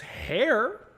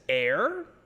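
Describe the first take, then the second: First: The name begins with an h sound. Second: The name begins directly with a vowel. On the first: "It could be said as hair" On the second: "It could be said as air"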